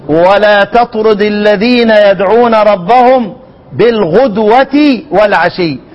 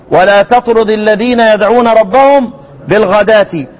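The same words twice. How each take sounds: First: Slow recitation, "بالغدوة" as bil-ghudwati; measured chant-like reading with ghudwati for "بالغدوة"; damm on ghayn. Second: Verse recitation with "بالغداة" said ghadati; a vowel on ghayn. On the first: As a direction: draw out the verse, giving "بالغدوة" a u after غ. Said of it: "الشامي بالضم". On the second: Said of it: "لان احنا هناك بنقرأ ايه؟". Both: Shown as a demonstration.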